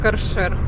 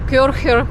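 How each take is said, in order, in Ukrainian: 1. Слово вимовляється зі звуком «ш». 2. Слово вимовляється зі звуком «х». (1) "читається як «каршер»" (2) "У французькій мові немає звуку «х»"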